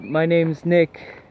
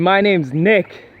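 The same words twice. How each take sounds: First: It is said quietly, without much confidence. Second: It is said firmly, with confident weight. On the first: The speaker does not value their own name. The speaker calls it wrong. "head kind of low, voice kind of quiet, not much confidence in it" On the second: The speaker gives their own name value and authority. The speaker calls it right. "I could put some weight behind"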